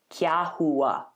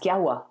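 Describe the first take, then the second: First: "Kya hua?" said clearly, with the h in hua; careful. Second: "Kya hua?" fast and run together like "kya wa". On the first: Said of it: "but it's kya hua". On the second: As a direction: rush "Kya hua?" so hua melts into wa. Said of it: "But when you say it fast". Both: Shown as a demonstration.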